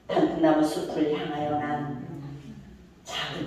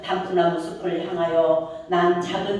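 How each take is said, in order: First: There is a pause right after 난. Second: It runs on without a pause after 난. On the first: The path is one that leads toward the forest. The speaker calls it right. "난에서 끊어야 되겠죠" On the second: The phrase reads as walking toward the forest. The speaker calls it wrong. "이렇게 가지 말고"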